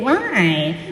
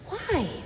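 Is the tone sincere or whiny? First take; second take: whiny; sincere. First: It sounds like a whiny, bratty child. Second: It sounds like a sincere, curious question.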